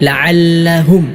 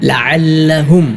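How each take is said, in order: The two takes are said the same way.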